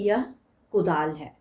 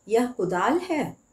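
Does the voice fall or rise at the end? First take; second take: fall; rise. First: The voice falls at the end like a statement. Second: The voice rises at the end like a question. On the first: It states that this is a hoe. "यहाँ पर पूर्ण विराम होता तो हम लोग कहते कि" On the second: It asks whether this is a hoe. "और प्रश्नवाचक लगने से"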